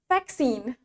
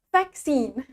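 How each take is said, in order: No difference in how they are said.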